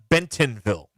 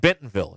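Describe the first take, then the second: First: The T in the middle is crisp. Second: The T in the middle is soft. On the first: The speaker calls it wrong. "It's not a hard T" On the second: The speaker calls it right. "It's also a soft T in Bentonville"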